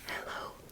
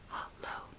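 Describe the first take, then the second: First: The first vowel sounds like 'eh'. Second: The first vowel sounds like 'ah'. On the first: "instead of an E" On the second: "the A is pronounced like A in father"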